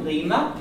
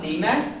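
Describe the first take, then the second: First: Lima with a short, weak final a; short unstressed ending. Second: Lima with a long, full final a; wrong long ending. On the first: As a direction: clip the end of Lima. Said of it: "short because there's no stress". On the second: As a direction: stretch the end of Lima. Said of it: "not Lima". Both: Shown as a demonstration.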